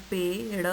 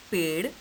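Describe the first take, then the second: First: पेड़ broken into पे and ड़; sounded out. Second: Said in the usual way. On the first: Shown as a demonstration. Teacher spelling out the word for children, पेड़ sounded out in parts. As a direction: say पेड़ in two separate parts, पे, then ड़. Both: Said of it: "प को एक ही मात्रा".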